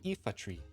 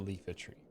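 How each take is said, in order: First: The name begins with a vowel sound. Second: The name begins with an L sound. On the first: The speaker calls it right. "it is actually the Ifa tree" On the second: The speaker calls it wrong. "It is not the Leafa tree"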